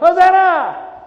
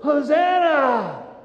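First: It is said as a happy cheer. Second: It is said as a begging prayer.

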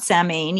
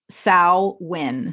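First: The word is said as spelled, 'sam-hain'. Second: The word is said like 'sow-in'. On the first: The speaker calls it wrong. "it's not Samhain, even though I guess phonetically that might be how you'd say it" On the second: The speaker calls it right. "it's pronounced Samhain. So like S-O-W-W-I-N"

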